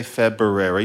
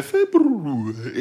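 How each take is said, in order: First: February slurred to Feb-ber-rary; "February" run together as Feb-ber-ary; easy February. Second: "February" over-articulated as Feb-rrroo-ary; exaggerated, drawn-out r and oo in "February"; laboured February. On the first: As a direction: say "February" casually, its first r slipped. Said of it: "You wanna say February". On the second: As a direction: struggle through every sound of "February". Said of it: "instead you have to say". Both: Shown as a demonstration.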